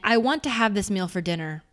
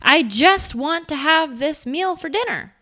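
First: It sounds firm and powerful. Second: It sounds hesitant and anxious.

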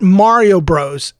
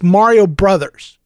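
First: The last word is the short one-syllable bros. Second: The last word is the full two-syllable brothers. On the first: The speaker calls it wrong. "It's not Mario Bros" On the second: The speaker calls it right. "It's Mario Brothers"

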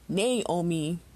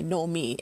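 First: An extra A vowel sound is added. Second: No extra vowel or R sound is added. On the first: The speaker calls it wrong. "people insist on pronouncing it Naomi" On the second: The speaker calls it right. "There is no A and there is no R in there"

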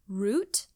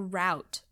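First: The vowel sounds like the one in boot. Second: The vowel sounds like the one in about. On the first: "rhymes with boot" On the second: "rhymes with about"

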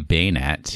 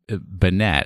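First: The first syllable rhymes with 'cane'. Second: The first syllable rhymes with 'can'. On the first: "I don't say Baynet" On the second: "I say Banet. ... my sister's name is Jeanette"

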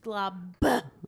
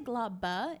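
First: The B is said hard and forcefully. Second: The B is said softly and lightly. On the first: The speaker calls it right. "Like with a really hard B" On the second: The speaker calls it wrong. "you say Globba"

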